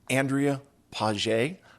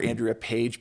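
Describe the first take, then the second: First: The surname is pronounced the French way. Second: The surname is pronounced the English way. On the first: "I think that's the proper French pronunciation" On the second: "because I'm in, I'm a United Stateser"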